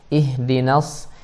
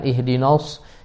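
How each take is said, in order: First: The 'na' is said thin and light. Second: The 'na' is said thick, almost like 'no'. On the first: The speaker calls it right. "na tipis" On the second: The speaker calls it wrong. "nunnya jadi tebal, jadi no"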